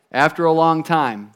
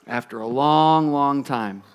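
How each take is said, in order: First: Said in the usual way. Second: "long, long" stretched out, sinking in pitch; drawn-out long. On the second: A narrator's reading. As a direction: linger on each "long" to stretch the wait. Repeats phrase, stretching the wait.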